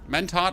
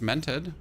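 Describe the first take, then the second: First: The last syllable has an open 'o' vowel. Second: The last syllable has a short 'e' vowel. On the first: "like Stad" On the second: "I was always like, it's mented"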